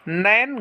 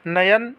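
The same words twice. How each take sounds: First: नयन run together as "nain"; wrong, merged syllables. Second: नयन as two syllables, "na-yan"; correct, separate syllables. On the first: Teacher showing students the mistake, syllables merged. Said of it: "गलत होता है". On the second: Teacher giving the right form, syllables separated. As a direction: sound the y in नयन. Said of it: "सही स्वरूप होता है". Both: Shown as a demonstration.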